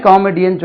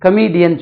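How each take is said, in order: First: காமெடியன் as "KAA-me-dian"; long first vowel, short e in காமெடியன்; wrong comedian. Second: கமெடியன் as "kuh-MEE-dian"; weak first syllable, long ee in கமெடியன்; correct comedian. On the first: Teacher quotes what everyone says, common mispronunciation. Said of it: "எல்லாமே காமெடியன் சொன்னா". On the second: Teacher recalls the taught form for learners, model pronunciation. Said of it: "கமெடியன் சொன்னோம்". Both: Shown as a demonstration.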